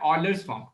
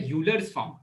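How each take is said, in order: First: Euler begins with an 'oy' sound. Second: Euler begins with a 'yoo' sound.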